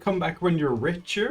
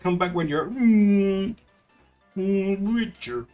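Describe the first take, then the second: First: The phrase flows straight through without hesitation. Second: A hesitant 'mm' pause comes before 'richer'. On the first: "He could have just said" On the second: "but he said"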